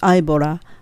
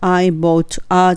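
First: The t in bought sounds like a light L. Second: The t in bought is a clear stop. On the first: The speaker calls it right. "bought a がL に変わって" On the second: The speaker calls it wrong. "I bought a じゃなくて"

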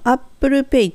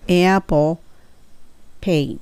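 First: It is said with Japanese katakana-style pronunciation. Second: It is said with English pronunciation. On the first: "ここのApple Pay っていうのは日本語なので" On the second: "これを英語にするとApple Pay"

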